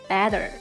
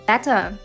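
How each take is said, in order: First: It is said with an American accent. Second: It is said without an American accent.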